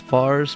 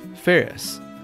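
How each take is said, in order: First: The name sounds like 'Fars', one syllable. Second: The name sounds like 'Ferris', two syllables. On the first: The speaker calls it wrong. "Commonly mispronounced" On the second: The speaker calls it right. "My birth name is [name]"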